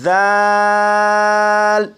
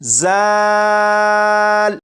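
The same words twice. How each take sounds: First: The consonant is soft, with no whistling hiss. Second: The consonant has a sharp whistling hiss. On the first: The speaker calls it right. "इसे भी नरमी से पढ़ेंगे यानी सीटी की आवाज़ के बगैर पढ़ेंगे" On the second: The speaker calls it wrong. "अगर इस हर्फ को सीटी की आवाज़ के साथ पढ़ें तो ये इस तरह पढ़ा जाएगा"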